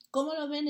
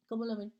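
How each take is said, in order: First: Higher and louder, pressing the question; emphatic repeat. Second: Said in the usual way. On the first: Real, not acted. Preacher presses his brothers for an answer, louder and higher. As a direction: push the congregation for an answer.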